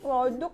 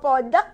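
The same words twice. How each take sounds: First: The word has a standard Indonesian pronunciation. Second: The word has a shifted, English-influenced pronunciation. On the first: It follows proper Indonesian usage. "karena kan kita mempergunakan bahasa Indonesia yang baik dan benar" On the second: It sounds like trendy South Jakarta slang. "kayaknya agak geser nih. S C B D"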